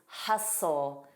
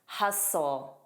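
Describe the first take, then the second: First: The T sound in the middle is silent. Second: The T sound in the middle is silent.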